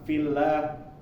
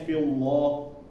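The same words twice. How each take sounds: First: The L sound is light and thin. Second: The L sound is heavy and thick. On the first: The speaker calls it right. "itu dibaca tipis" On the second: The speaker calls it wrong. "dikiranya dibaca tebal"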